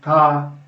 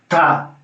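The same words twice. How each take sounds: First: The consonant is softened and gentle. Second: The consonant is hard and percussive. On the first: The speaker calls it right. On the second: The speaker calls it wrong.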